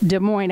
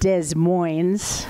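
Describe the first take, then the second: First: The city name has its standard pronunciation. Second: The city name is pronounced in an altered way. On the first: The speaker calls it right. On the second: The speaker calls it wrong.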